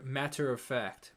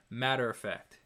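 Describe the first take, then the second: First: MATTER with a crisp T, slowly; original T. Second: Smooth over the T in MATTER; T taken out. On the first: Singer demonstrating the main vocal, crisp T in MATTER. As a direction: pronounce the T in MATTER fully. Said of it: "you have that original T". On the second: Singer demonstrating the harmony, softened T in MATTER. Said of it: "you take out that, that T". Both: Shown as a demonstration.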